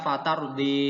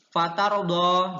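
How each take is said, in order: First: The final vowel is shifted toward an 'e' sound. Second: The final vowel is an open 'a'-like sound.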